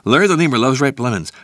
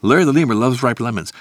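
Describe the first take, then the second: Both takes have the same delivery.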